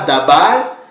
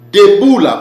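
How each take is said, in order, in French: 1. Le mot a deux voyelles A et finit par R. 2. Le mot a les voyelles E et OU, et finit par LA. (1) "Ça ne se lit pas dabar" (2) "ces mots-là se lit debout là"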